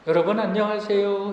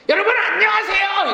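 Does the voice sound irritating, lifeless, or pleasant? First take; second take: pleasant; irritating. First: The voice sounds pleasant at a mid pitch. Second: The voice sounds irritating to hear.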